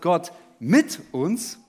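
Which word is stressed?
mit. The stress is on the word mit. The focus is on God being with us. "bei jedem Punkt liegt die Betonung auf einem anderen Wort"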